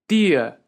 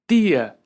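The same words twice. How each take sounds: Both takes have the same delivery.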